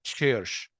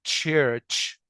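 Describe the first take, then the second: First: It begins with a soft 'sh' sound. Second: It begins with a sharp 'ch' sound. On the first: The speaker calls it wrong. "بدل ما انطقها بنطقها ش" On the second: The speaker calls it right. "يبقى نطق للكلمه دي church"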